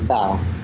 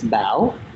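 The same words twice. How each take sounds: First: The name is said with a flat tone. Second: The name is said with a rising tone. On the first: A simplified form that is easier for others. "when I introduce myself to um, certain people, I say my name is Bao" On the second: The true form of the name in the home language. "it has that question mark sound"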